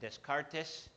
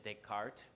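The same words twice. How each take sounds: First: The name is said with Spanish sounds. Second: The name is said with French sounds. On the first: "Ustedes creo que dicen" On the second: "El nombre es francés, se pronuncia"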